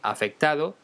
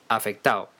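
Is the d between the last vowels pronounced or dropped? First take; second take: pronounced; dropped. First: The d before the final o is pronounced. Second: The d before the final o is dropped. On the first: "en vez de decir afectado" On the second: "decimos afectado"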